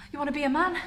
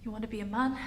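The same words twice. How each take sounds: First: Pointed question with rising end; challenging question. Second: Soft, resigned question with rising end; subdued question. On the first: Character confronting changing partner, pointed question. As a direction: throw it out as a challenge. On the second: Character facing partner after confession, subdued question. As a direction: ask it gently, giving in. Acted softer return to challenge. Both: Acted.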